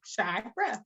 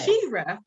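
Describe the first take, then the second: First: "Shira" with "shy" as the first syllable; long I pronunciation. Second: "She-Ra" with a long "ee" in the first syllable; long E pronunciation. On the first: Guest showing her own name, "Shira" said SHY-ra. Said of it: "my name is spelled S H I". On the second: Guest showing the cartoon's pronunciation, "She-Ra" with long E. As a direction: say "She-Ra" as SHEE-ra. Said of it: "Vowels create different sounds". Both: Shown as a demonstration.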